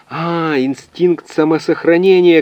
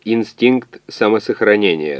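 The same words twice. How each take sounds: First: High, drawn-out cry of realisation; крик догадки. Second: Measured machine confirmation, fairly slow; ответ калькулятора. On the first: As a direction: call it out high as the answer dawns. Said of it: "крикнул физик". (выкрикнуть догадку высоким голосом) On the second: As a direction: repeat the term evenly, without crying out. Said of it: "калькулятор поспешно объяснил". (калькулятор ровно подтверждает термин) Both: A narrator's reading.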